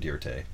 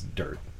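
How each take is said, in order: First: The word gets an added fancy-sounding ending. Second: The word is said plainly with no added ending. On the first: The speaker calls it wrong. "not dirte" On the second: The speaker calls it right. "It's dirt"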